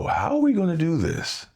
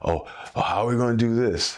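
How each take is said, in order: First: It sounds eager and determined, ready to solve it. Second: It sounds worried and doubtful, like giving up.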